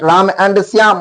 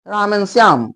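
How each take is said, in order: First: The word 'and' is said in full with its d. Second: The word 'and' is reduced to a short 'n'. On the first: The speaker calls it wrong. "Note ... ऐसे नहीं" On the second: The speaker calls it right. "अंग्रेज जो कहते हैं एन"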